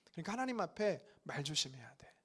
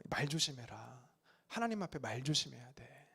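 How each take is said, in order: First: Hushed cautionary whisper. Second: Softer, lower mild warning from the elders; a hint of an old elder cautioning; elders' warning. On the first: Shown as a demonstration. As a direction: whisper "하나님 앞에 말 조심해야 돼" as a secret warning. Repeats warning in whisper. (속삭이는 경고) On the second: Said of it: "어르신들이 저에게 이런 말씀". (어르신이 아이에게 조용히 타이르는 경고)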